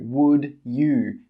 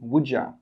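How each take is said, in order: First: Both words are said fully and separately. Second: The words are joined, 'you' reduced to 'ya'. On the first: The speaker calls it wrong. "We don't say would you" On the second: The speaker calls it right. "We put those together and we say would ya"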